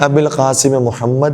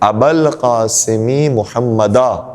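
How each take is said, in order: First: The words end without case vowels, 'abil … muhammad'. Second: The words carry case vowels, 'abal … muhammada'. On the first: The speaker calls it wrong. "ये अरबी तरकीब के हिसाब से सही नहीं है" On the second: The speaker calls it right. "इस तरह से होना चाहिए"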